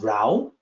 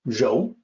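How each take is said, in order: First: The word rhymes with 'cow'. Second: The word rhymes with 'go'. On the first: The speaker calls it wrong. "it's not rao, as uh, one may assume looking at the pinyin" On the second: The speaker calls it right. "It's 柔"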